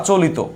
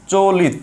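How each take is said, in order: First: চলিত said as "cho-li-to"; চলিত in three syllables, ending "to"; second variant. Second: চলিত said as "cho-lit"; চলিত in two syllables, no final vowel; first variant. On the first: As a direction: add an o to the end of চলিত. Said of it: "বা চলিত". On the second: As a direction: end চলিত on a closed t. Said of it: "ধরেন আমি লিখলাম". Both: Shown as a demonstration.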